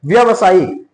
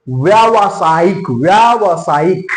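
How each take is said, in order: First: व्यवसायिक with a short first vowel, व्य not व्या; wrong pronunciation. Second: व्यावसायिक very slowly, long व्या, each part stretched; correct pronunciation. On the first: Teacher showing what is not right, wrong pronunciation. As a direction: say व्यवसायिक without the long आ after व्य. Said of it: "ये सही नहीं है". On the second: Teacher giving students the right spelling by sound, correct pronunciation. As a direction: sound out व्यावसायिक twice with a long आ after व्य. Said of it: "इसका सही वर्तनी क्या है". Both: Shown as a demonstration.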